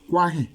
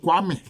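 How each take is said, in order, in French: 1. Le nom se termine par une voyelle nasale. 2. Le nom se termine par un son m. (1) "chez les Baoulés, on dit Kwain" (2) "l'enzema, il dit Kwame"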